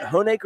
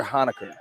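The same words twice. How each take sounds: First: Honecker with long O and AY; Honecker as HOE-nay-ker. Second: Honecker with open AH, weak middle; Honecker as HAH-nuh-ker. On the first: Co-announcer checks a player's name, Honecker said HOE-nay-ker. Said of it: "The true way to say it". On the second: Co-announcer offers the other reading, Honecker said HAH-nuh-ker. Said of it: "Is it Honecker or Honecker?". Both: Shown as a demonstration.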